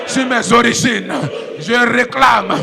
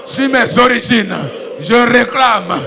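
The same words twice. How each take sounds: The two takes are said the same way.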